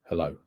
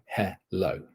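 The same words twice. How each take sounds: First: Said in the usual way. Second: Hello said as spelt, no schwa in the first syllable; full first vowel. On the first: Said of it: "it's the uh sound". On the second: Shown as a demonstration. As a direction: slowly give hello its full written e. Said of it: "you're pronouncing the full shape of it".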